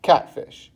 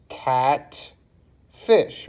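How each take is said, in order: First: Said in the usual way. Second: "cat, fish" with a pause between; syllable by syllable. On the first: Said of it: "tells you how many syllables". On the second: Shown as a demonstration. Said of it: "I put a little dot in between".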